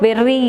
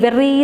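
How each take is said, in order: The two takes are said the same way.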